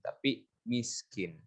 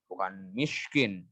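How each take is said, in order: First: The s sound is a plain light s. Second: The s sound is not a plain light s. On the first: The speaker calls it right. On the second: The speaker calls it wrong.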